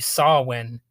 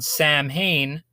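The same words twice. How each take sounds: First: The name is pronounced unlike its spelling. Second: The name is pronounced as it is spelled. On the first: This is the traditional pronunciation. "the proper pronunciation is supposed to be Samhain" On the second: This is how most people say it. "which is called Samhain"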